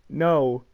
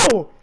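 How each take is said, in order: First: It is said calmly, without exclamation. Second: It is said as a full-on shout.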